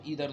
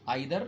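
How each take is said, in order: First: The first vowel sounds like 'ee'. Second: The first vowel sounds like 'eye'. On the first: "आजकल ईदर ज़्यादा popular हो रहा है" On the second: "इसको दो लोग समाज में अलग अलग तरीके से बोलते हैं"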